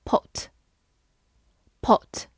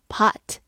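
First: Said in the usual way. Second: American "pot" with an open "ah"; American-accented "pot"; American pronunciation. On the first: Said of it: "美式发音pot". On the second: Shown as a demonstration. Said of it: "美式发音".

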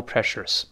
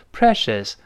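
First: Precious with an extra r before the final s; precious mispronounced with an "-ers" ending; wrong r-coloured precious. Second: Precious with no r before the final s; precious with the tongue left flat at the end; correct precious. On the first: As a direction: curl the tongue at the end of precious, "presh-ers". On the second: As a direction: say precious ending in a clean "-shəs". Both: Shown as a demonstration. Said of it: "不要读precious".

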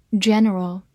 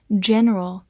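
No difference in how they are said.

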